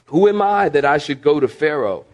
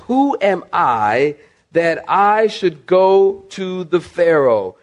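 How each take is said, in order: First: Said in the usual way. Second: "who am I" slow and drawn out; incredulous emphasis. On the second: Retold or imitated. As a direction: stretch "that I should go to the Pharaoh" word by word. Verse repeated slowly for emphasis.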